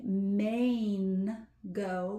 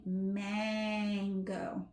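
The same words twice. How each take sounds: First: Maine go split like the state Maine plus go; wrong long A. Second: Mango with a nasal ah before the n, slow; right nasal A. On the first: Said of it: "you're not actually saying Maine go". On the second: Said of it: "You're saying mango". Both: Shown as a demonstration.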